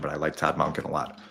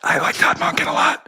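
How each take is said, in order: First: It is said in a normal voice. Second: It is said in a whisper.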